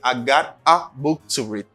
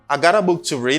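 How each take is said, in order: First: 'Got a' is said as two full words. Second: 'Got a' is blended into one reduced form. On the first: "instead of saying I got a book to read" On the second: "I got a book to read instead of saying"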